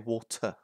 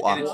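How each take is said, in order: First: It is said in a British accent. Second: It is said in an American accent. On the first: The speaker calls it right. "we say water" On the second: The speaker calls it wrong.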